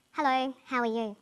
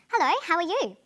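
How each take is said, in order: First: Sad, subdued greeting on a level pitch. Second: Bright happy greeting, higher and louder. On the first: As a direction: say hello as if feeling down. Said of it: "or sound sad". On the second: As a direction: greet someone as if delighted to see them. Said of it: "Someone can sound happy". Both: Shown as a demonstration.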